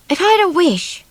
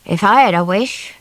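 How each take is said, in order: First: A lightly voiced young girl, higher; girl's voice. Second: Man's voice. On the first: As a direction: wish it in a small girl's higher voice. Swallow, a girl, wishes aloud. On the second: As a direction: say it as the tired man, plainly. The man answers the children. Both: A narrator's reading.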